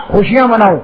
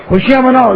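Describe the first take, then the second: First: Said in the usual way. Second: خوشیاں مناؤ repeated higher, with weight on مناؤ; a preacher driving the line home, higher; emphatic repeat. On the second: Shown as a demonstration. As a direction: lift the pitch and land hard on مناؤ.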